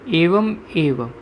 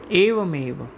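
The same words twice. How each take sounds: First: એવમ એવ as two separate slow words; sandhi split apart. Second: એવમ એવ run together as evameva; sandhi joined up. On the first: Teacher splitting the sandhi for students, એવમ એવ slowly in two words. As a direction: say એવમ, then એવ, with a clear break. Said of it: "ત્યાં સંધિ છૂટી પડતા એવમ plus એવ". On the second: Teacher reading the sandhi for students, એવમ એવ joined as one word. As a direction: link the m of એવમ straight into એવ. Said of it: "ત્યાં સંધિ છૂટી પડતા". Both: Shown as a demonstration.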